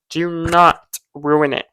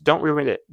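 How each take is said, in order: First: "Do not ruin it" slowed, with "not" drawn out; stress on NOT. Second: Said in the usual way. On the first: Real, not acted. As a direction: lean slowly on "not" as a warning. Warning repeated with emphasis.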